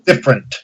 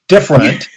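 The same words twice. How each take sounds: First: It is said with the middle syllable dropped. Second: It is said with three full syllables.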